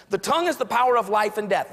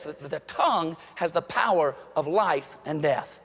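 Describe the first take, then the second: First: Said in the usual way. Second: "tongue" stressed, whole line slowed; slow, weighty proverb with "tongue" leaned on; slow emphasis. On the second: Shown as a demonstration. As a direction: lean on "tongue" and draw the proverb out.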